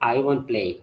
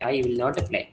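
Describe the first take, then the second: First: The negative is squeezed into one short word. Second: The negative is said as two full words. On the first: "വിൽ നോട്ടിന്റെ ചുരുക്കരൂപമാണ് വോണ്ട്" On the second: "ഇത്ര മതി"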